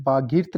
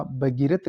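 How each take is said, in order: First: बागीर्थ with long baa, closed ending; mispronounced भगीरथ. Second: Said in the usual way. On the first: Shown as a demonstration. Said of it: "बागीर्थ नहीं होता". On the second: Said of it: "भगीरथ लिखा जाता है".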